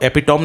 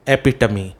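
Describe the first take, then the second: First: The word ends in an 'm' sound. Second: The word ends in an 'ee' sound. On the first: The speaker calls it wrong. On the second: The speaker calls it right.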